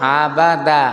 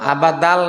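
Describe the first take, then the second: First: The word ends on an open vowel. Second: The word ends with an added L sound. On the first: The speaker calls it right. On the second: The speaker calls it wrong. "আবাদাল না তো"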